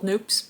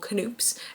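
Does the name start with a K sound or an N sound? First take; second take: N sound; K sound. First: The name begins with an N sound. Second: The name begins with a sounded K. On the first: This is probably the actual name. "It's probably called Noops" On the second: This is the preferred, playful way to say it. "she likes to call Canoops"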